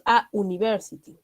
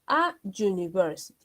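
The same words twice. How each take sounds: First: "a university" said the wrong way, as an university with a vowel start; the mistaken version, article an before university; wrong-on-purpose an university. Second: "a university" with plain a, university starting with a you sound; the right version, a before a you sound; correct article. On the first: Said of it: "no existe". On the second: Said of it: "Por lo tanto, vamos a decir". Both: Shown as a demonstration.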